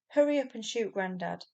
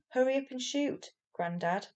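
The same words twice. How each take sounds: First: The phrase runs on without a pause. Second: There is a pause before Grandad. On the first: Grandad is the one being shot. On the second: Grandad is being spoken to.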